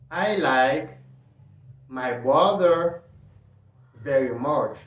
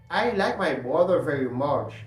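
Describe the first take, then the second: First: It is said slowly. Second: It is said at normal speed.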